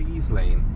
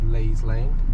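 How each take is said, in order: First: The first word is said with an 'ee' vowel. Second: The first word is said the local way. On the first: The speaker calls it wrong. "Often people pronounce it wrong and they call it Lees Lane" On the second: The speaker calls it right. "this is called Leys Lane"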